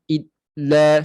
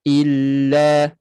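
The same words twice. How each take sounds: First: The L is pressed hard and the voice cuts off. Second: The L is held lightly and the voice keeps flowing. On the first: The speaker calls it wrong. "lam jangan tekan kuat sangat, illa sampai memutuskan suara" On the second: The speaker calls it right. "tidak sampai putus suara ... suara ada ada pengaliran suara"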